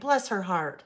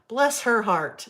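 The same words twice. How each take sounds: First: It is said with sincere sympathy. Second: It is said as a sarcastic put-down.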